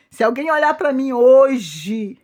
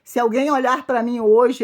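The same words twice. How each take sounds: First: Louder and slower, leaning on "olhar"; slow emphatic repeat. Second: Said in the usual way. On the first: Shown as a demonstration. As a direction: drive "olhar" home, slowly and loudly. (repetição lenta e enfática, forte em "olhar") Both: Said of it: "repeats the question, slower".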